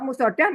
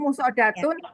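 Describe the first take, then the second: First: The word ends in a plain h sound. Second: The word ends in a full -tun ending. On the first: This is how it sounds when reading the Quran with a stop. "hak marbutok" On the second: This is the full Arabic reading showing the case ending. "sebaiknya dibaca lengkap"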